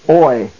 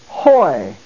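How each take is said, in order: First: The syllable begins directly with the vowel. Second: The syllable begins with an H sound. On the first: "pronounced oi" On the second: "The iota has the rough breathing mark over it. Therefore, the oi is pronounced hoi"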